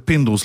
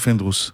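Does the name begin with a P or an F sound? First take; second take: P; F. First: The name begins with a P sound. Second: The name begins with an F sound. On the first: The speaker calls it right. "אם ככה זה פינדרוס" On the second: The speaker calls it wrong. "לא פינדרוס"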